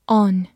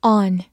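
First: Said in the usual way. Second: American "On" with a wide-open mouth, like "ahn"; American pronunciation. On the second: Shown as a demonstration. Teacher showing learners the wide-mouthed American "On". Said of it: "美式发音口型比较大".

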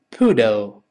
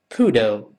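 No difference in how they are said.

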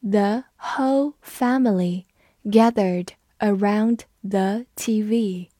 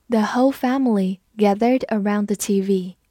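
First: Slow reading, each word set apart; measured teacher's model for repeating; slow read-through. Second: Said in the usual way. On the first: Shown as a demonstration. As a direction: read word by word with short pauses. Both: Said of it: "我们慢读一遍".

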